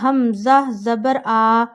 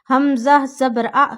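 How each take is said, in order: First: The final vowel is stretched out long. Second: The final vowel is cut off with a jerk. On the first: "ऐसे नहीं पढ़ना ... क्योंकि आप खींच रहे हैं" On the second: "ऐसे भी नहीं पढ़ना, झटका भी नहीं देना"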